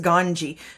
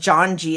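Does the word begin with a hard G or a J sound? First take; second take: hard G; J sound. First: The word begins with a hard G sound. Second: The word begins with a J sound. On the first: The speaker calls it right. "it's ganji" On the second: The speaker calls it wrong. "It's not pronounced janji"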